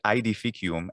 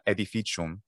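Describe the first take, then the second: First: The first vowel is not an e sound. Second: The first vowel is an e sound. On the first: "I say edificium" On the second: "letter A, letter E makes E ... and not edificium"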